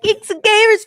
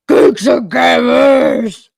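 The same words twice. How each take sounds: First: It is said in a happy, welcoming tone. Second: It is said in a threatening, unwelcoming tone. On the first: "he sounds very happy" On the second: "It would sound threatening, not welcoming"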